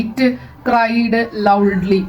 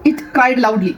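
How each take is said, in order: First: Slow word-by-word. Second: Said in the usual way. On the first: Shown as a demonstration. Teacher repeating an example sentence to students, slow word-by-word.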